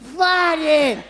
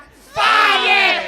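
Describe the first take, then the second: First: It is said at normal volume. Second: It is said in a louder voice.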